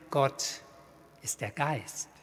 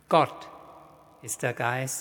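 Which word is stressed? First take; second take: Geist; Gott. First: The stress falls on the word Geist. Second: The stress falls on the word Gott. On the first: God is the creative, life-giving power. "Zum anderen hält der Satz fest" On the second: It is God and no other power that is the Spirit. "Zum einen hält er fest, dass Gott der Geist ist"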